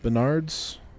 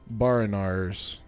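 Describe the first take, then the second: First: The name sounds like Bernard's, with two syllables. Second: The name sounds like Ba-ri-nars, with three syllables. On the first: The speaker calls it wrong. "not Bernard's" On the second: The speaker calls it right. "Sorry, Barinars Star"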